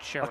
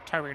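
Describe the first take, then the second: First: The word begins with a 'ch' sound. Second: The word begins with a clear 't' sound. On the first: The speaker calls it wrong. "not chewy" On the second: The speaker calls it right. "It's TUI"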